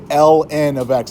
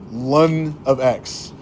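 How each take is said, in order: First: The 'ln' is said as two letters. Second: The 'ln' is said as one word. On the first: This is how it is said in America. "like we pronounce the letters" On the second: This is how it is said in Australia. "In Australia, they say ln"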